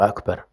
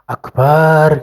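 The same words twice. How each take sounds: First: The second vowel of the word is short. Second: The second vowel of the word is drawn long. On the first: It means greatest. The speaker calls it right. "Harusnya Allahu Akbar" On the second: The meaning becomes confused. The speaker calls it wrong. "Kalau misalnya Akbar gitu panjang"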